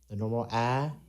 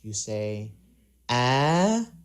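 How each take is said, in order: First: The pitch stays level and ordinary. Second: The pitch goes uphill to high. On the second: "when you go uphill or high pitch or higher pitch"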